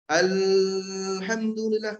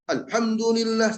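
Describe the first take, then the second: First: The l sound flows on continuously. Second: The l sound is cut off short. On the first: The speaker calls it right. "terus mengalir" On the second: The speaker calls it wrong.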